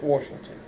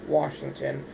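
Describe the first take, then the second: First: It is said with the local pronunciation. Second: It is said with the standard pronunciation. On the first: This is how people from the town say the name. "if you're from Washington, then you call it Washington" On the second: This is how outsiders say the name. "the correct pronunciation, I guess, for everybody else would be Washington"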